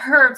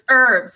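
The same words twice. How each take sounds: First: The word begins with an audible H sound. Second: The word begins without any H sound. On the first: The speaker calls it right. "I actually like, you know, say the H in there" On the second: The speaker calls it wrong. "it's herbs"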